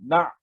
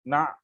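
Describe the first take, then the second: First: The sound is caught and stopped abruptly. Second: The sound is caught and stopped abruptly.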